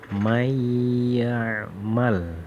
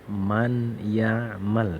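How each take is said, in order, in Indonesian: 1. Bunyi n menyatu dengan bunyi setelahnya. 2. Bunyi n dibaca jelas dan terpisah. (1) "Bacanya harus" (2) "tidak boleh dibaca"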